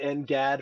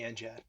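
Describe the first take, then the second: First: The G is said hard, as in go. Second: The G is said soft, like a J. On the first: This is the Air Force's usage. "The Air Force will say N G A D" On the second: This is the Navy's usage. "We pronounce it with a soft G"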